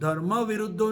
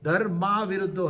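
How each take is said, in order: First: The vowel after 'dharm' is short. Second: The vowel after 'dharm' is long. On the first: Desire that opposes dharma. The speaker calls it wrong. "धर्म विरुद्धो नहीं है" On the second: Desire that does not oppose dharma. The speaker calls it right. "धर्मा विरुद्धो है"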